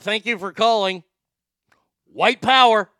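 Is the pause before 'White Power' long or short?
long. A long pause comes before 'White Power'. The speaker calls it right. "There it is. That's the correct way"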